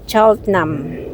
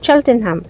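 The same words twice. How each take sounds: First: Said the local way, with letters reduced. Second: Every letter is sounded out, Filipino style. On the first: "But pag mga puti" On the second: "ganito talaga pag mga Pilipino ang magbigkas sa word na yan"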